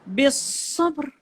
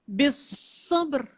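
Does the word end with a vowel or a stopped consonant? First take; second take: stopped consonant; stopped consonant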